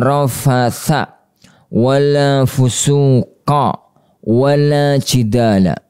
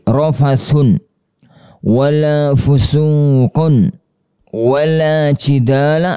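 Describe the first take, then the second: First: The first two nouns end in a short -a. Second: The first two nouns end in -un. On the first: "bisa dibaca dengan fathah dua yang pertama" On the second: "Bisa juga dibaca dengan bacaan yang lain"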